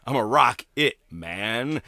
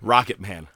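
First: Slow spoken-word rendition of a lyric, lightly put on. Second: Said in the usual way. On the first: Cartoon character doing Rocket Man, slow spoken delivery. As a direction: stretch out each word, half-imitating. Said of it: "like, Stewie doing". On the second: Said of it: "I was thinking, like, Stewie doing".

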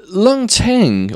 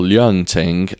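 First: Leung said as "Lung", without a y glide; slow, higher Leung Ting, as "Lung Ting"; name attempt. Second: Leung said as "Lyung", with a y glide; slow, lower Leung Ting, as "Lyung Ting"; alternative pronunciation. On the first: Host trying the teacher's name, Leung as "Lung". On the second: Host offering another version, Leung as "Lyung". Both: Real, not acted. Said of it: "I keep saying his name wrong".

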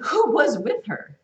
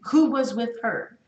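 First: Slow and loud, leaning on who; emphatic slow who was with her; stressed who was with her. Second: Slow and loud, weight on Who; emphatic slow Who was with her; stressed who was with her. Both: Shown as a demonstration. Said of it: "Highlight that in your Bible".

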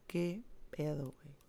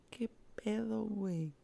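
First: Fading sob. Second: "¡Qué pedo" in a high, sobbing wail. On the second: Crying out over her mother, high pitched wail. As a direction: cry it out high and broken. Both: Retold or imitated. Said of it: "de esos llantos de moco".

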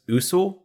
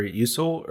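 First: Usul said with an initial "oo"; OO-sool pronunciation. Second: Usul said with an initial "you"; YOU-sul pronunciation. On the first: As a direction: say Usul as OO-sul, no y sound. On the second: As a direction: say Usul as YOO-sul, with a y glide. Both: Shown as a demonstration. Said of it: "what is Usul or Usul".

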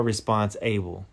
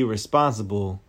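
First: "response-able" said as two words, response and able; split-word pronunciation. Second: Said in the usual way. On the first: Shown as a demonstration. Preacher making a wordplay on responsible, "response-able" split in two. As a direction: break "response-able" apart so that "able" sounds in full. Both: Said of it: "but you are response-able".

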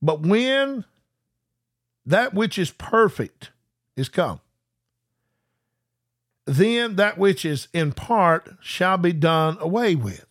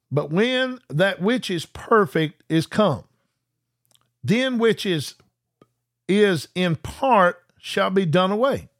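First: Very slow, phrase by phrase with long pauses; read real slow. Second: Deliberate, measured reading; slow scripture reading. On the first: Shown as a demonstration. Preacher rereading the verse real slow for viewers. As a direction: stretch every word and pause between phrases. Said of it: "I'm gonna read that real slow to you". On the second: Acted. Preacher reading Corinthians to viewers, slow and measured. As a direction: let each phrase land slowly.

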